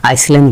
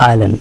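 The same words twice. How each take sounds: First: আইসল্যান্ড with the S sounded, "ais-land"; mispronounced island. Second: আইল্যান্ড with no S, "ai-land"; silent S. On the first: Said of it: "আইসল্যান্ড বলি না". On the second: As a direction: go straight from "ai" to L in আইল্যান্ড. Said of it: "আমরা বলি আইল্যান্ড". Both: Shown as a demonstration.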